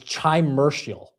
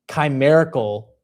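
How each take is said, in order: First: The word begins with a ch sound. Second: The word begins with a hard k sound. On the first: The speaker calls it wrong. "I thought this word" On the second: The speaker calls it right. "the C and the H made a cuss sound"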